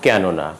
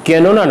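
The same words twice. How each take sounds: First: কেননা with open "ae"; কেননা with "ae" as in "cat"; open first vowel. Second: কেননা with closed "e"; closed first vowel. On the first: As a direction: say কেননা as "kaenona". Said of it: "উচ্চারণ হবে". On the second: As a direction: say কেননা as "kenona". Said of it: "নয়". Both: Shown as a demonstration.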